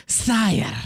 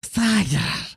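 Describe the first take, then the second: First: Snake voice. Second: Hissing serpent courtier voice; a sly snake advisor hissing. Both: Retold or imitated. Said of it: "It has a snake voice".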